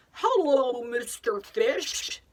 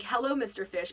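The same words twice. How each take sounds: First: Put-on drawn-out, cheery call to Mister Fish, as if to a child; playful greeting to a fish. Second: Said in the usual way. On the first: Shown as a demonstration. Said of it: "So I'll say something like". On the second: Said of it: "and, like".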